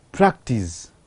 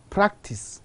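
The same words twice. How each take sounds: First: "practice" ending in buzzed z; final Z sound. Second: "practice" ending in voiceless s; final S sound. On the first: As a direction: say "practice" as PRAK-teez, voiced ending. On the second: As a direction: say "practice" as PRAK-tiss. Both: Shown as a demonstration. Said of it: "change of the final sound from s to z".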